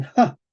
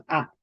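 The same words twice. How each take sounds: First: "ja" as a breathy puff, like English "ha"; aspirated H sound. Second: Plain vowel A with no breath before it; silent H. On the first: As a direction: huff out the sound ja. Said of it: "pero pronuncian". (ja aspirada, con soplo de aire) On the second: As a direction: say just A, dropping the H. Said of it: "no pronunciamos la H". (A sola, con la H muda) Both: Shown as a demonstration.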